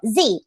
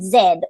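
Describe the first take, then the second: First: The letter is pronounced zee, American style. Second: The letter is pronounced zed, non-American style.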